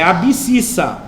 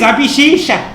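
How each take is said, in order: First: The middle is said with 'bs' sounds. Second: The middle is said with 'sh' sounds. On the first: The speaker calls it right. "porque é errado, é abscissa" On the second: The speaker calls it wrong. "eu estou ensinando vocês a falar errado para memorizar"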